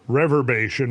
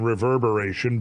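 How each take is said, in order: First: The word is said with four syllables. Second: The word is said with five syllables. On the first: The speaker calls it wrong. "I called it rever, reverbation" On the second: The speaker calls it right. "when it should have been reverberation"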